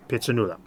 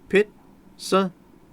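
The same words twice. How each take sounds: First: Said in the usual way. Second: "Pitsanulok" broken into slow, separate syllables. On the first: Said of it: "Four syllables". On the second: Shown as a demonstration. Teacher showing students the syllables of "Pitsanulok", slowly separated. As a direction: sound out "Pitsanulok" slowly, a pause after each syllable. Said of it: "That has syllables".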